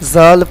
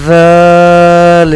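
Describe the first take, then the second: First: The letter name is said short, not drawn out. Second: The letter name is said drawn out. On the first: The speaker calls it wrong. "ये गलत है" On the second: The speaker calls it right. "इसको हम खींच कर पढ़ेंगे"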